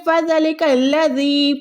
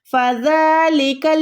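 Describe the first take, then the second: First: फ़ज़लिकल्लज़ी with the first "za" cut short; फ़ज़लिकल्लज़ी run together without the long aa; unstretched, mistaken. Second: फ़ज़लिकल्लज़ी with a long held "dhaaa"; measured chanted फ़ज़लिकल्लज़ी, the taught way; stretched zaal. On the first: Retold or imitated. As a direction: imitate the error, hurrying through "fa-za-li" in फ़ज़लिकल्लज़ी. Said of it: "खड़ी ज़बर को अदा ही नहीं करते". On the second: Shown as a demonstration. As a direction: recite फ़ज़लिकल्लज़ी, stretching "dhaa" and final "dhee". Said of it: "जाल को खींचना है".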